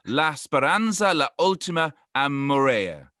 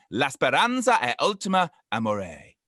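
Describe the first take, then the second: First: Slow, careful Italian phrase from a British speaker; romantic Italian attempt. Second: A second go at the Italian, a touch menacing; slightly threatening Italian. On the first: British podcaster tries the Italian proverb, romantic Italian accent. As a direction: savour the Italian words like a tourist trying hard. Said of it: "that's so romantic the way you said it". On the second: Retrying the Italian proverb for co-hosts, slightly threatening. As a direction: say the proverb again with a hint of threat. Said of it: "that sounded slightly threatening though".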